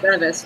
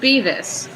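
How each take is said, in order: First: The first vowel is a short 'eh' sound. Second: The first vowel is a long 'ee' sound. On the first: The speaker calls it wrong. "a lot of people guess Bevis first" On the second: The speaker calls it right. "So it's pronounced Beavis"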